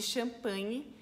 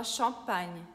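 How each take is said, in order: First: Champanhe with a final Portuguese vowel; Brazilian pronunciation. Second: Champagne with nasal first syllable, no final vowel; French pronunciation. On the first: Teacher introduces two brands, Brazilian pronunciation of champanhe. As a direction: say champanhe the Brazilian way, ending "nhe". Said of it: "que em francês a gente fala". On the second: Teacher shows how French says it, French pronunciation of champagne. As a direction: stop champagne on the "gn", French style. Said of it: "em francês a gente fala". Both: Shown as a demonstration.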